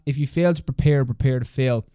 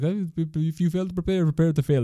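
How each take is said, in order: First: It is said in the speaker's normal accent. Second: It is said in an imitated French accent.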